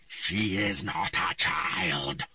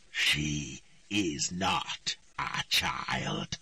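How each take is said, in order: First: Very slow, menacing; slow cold denial. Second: Lower, even slower, menacing; slow cold repetition. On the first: The voice denies Ciri is a child, slow and cold. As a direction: speak as an ancient spirit. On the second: The voice repeats its denial to Triss, lower and slower. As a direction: repeat it like a doom. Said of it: "the voice repeated". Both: A narrator's reading.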